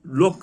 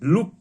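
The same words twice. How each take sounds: First: लोक with a long "o" vowel; "o" sound in लोक, not "oo"; "o" reading. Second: लुक with a short "oo" vowel; short "oo" in लुक, not "o"; "oo" reading. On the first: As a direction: say लोक, "o" as in local. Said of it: "लोक कहते हैं". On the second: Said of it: "ऊ के ध्वनि में होगा". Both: Shown as a demonstration.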